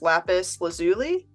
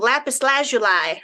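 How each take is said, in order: First: It is pronounced in a plain English way. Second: It is pronounced with a French-sounding flourish. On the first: The speaker calls it right. "I believe is how you say it" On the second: The speaker calls it wrong. "like I was French with it"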